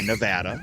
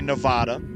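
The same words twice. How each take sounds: First: The word uses the local pronunciation. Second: The word uses the outsider pronunciation. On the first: Locals prefer it out of local pride. The speaker calls it right. "say Nevada" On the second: Locals would take offense at it. The speaker calls it wrong. "don't say Nevada"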